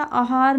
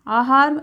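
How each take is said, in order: First: आहार with a short first vowel, "a-haar"; wrong-form demo. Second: Said in the usual way. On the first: Shown as a demonstration. Teacher showing students the misspelling, आहार with shortened first vowel. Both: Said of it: "आहार नहीं लिखा जाता".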